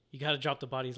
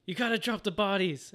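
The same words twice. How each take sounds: First: Said in the usual way. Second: Higher, emphatic mock command; raised-pitch, urgent retold order; insistent repeated order. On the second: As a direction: press the order on a disbelieving listener. Order repeated after a disbelieving "What?.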